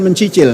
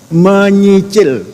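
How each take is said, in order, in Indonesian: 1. Kata itu diucapkan dengan bunyi 'nc': mencicil. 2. Kata itu diucapkan dengan bunyi 'ny': menyicil. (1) "bukan mencicil"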